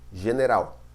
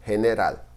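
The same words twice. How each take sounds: First: General, pronúncia portuguesa; Portuguese pronunciation. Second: "general" with a breathy h start and a clear final l, Spanish style; general, pronunciación española; Spanish pronunciation. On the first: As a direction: say "general" as in Portuguese, ge like zh and ending in -raw. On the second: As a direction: say "general" the Spanish way, he-ne-ral with a crisp l. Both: Shown as a demonstration. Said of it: "Em espanhol".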